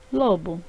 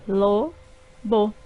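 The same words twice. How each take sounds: First: Said in the usual way. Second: Lo-bo in two separate beats; syllables split. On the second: Shown as a demonstration. Teacher showing two syllables in lobo. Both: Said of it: "formadas por duas sílabas".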